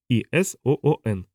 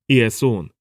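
First: It is spelled out letter by letter. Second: It is said as one whole word. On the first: "Он выговорил слово по буквам" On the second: "Не так, как говорили мы"

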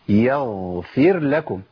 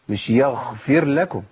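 First: The gh is voiced with the breath held back. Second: The gh leaks breath and sounds like kh. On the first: The speaker calls it right. "لابد من تمكين صفة الجهر" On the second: The speaker calls it wrong. "هي خاء"

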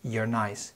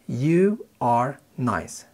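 First: You are is reduced to one quick syllable. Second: You are is said as two full words.

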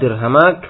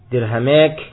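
First: The long vowel sounds like a plain 'a'. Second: The long vowel is tilted toward 'e'.

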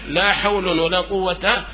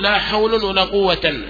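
First: The last word ends in a plain short a. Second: The last word ends in -an. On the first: The speaker calls it right. "الفتح" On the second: The speaker calls it wrong. "ولا تنصبا ... هذا لحن"

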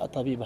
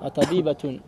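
First: The word ends on a bare vowel, no t. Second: The word ends with a t and an ending. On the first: The word is treated as if the phrase ended here. The speaker calls it wrong. "la taqul Atabiba hakala" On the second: The word is linked to the words that follow. The speaker calls it right. "si c'est une liaison"

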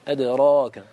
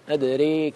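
First: The vowel after r is an open, full a. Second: The vowel after r leans toward an e sound. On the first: "فتح الفم بالراء والألف بعدها، هذا هو المقصود بالفتح" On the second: "هذا ليس فتحا، هذا إمالة"

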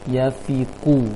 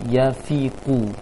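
Both takes have the same delivery.

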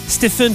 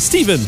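First: The name is said with a French-style pronunciation. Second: The name is said with an English pronunciation. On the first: This is how people commonly say it. The speaker calls it wrong. "comme ils disent tout le temps" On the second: This is the name's actual form. The speaker calls it right. "c'est Stephen"

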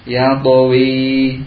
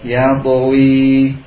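No difference in how they are said.

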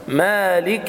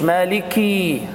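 First: The k is followed by a short clear i. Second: The vowel after the k is drawn out long. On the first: The speaker calls it right. "بيان كسرة الكاف لأنها مكسورة" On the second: The speaker calls it wrong. "ما تقولش مالكي عشان ما تولدش ياء"

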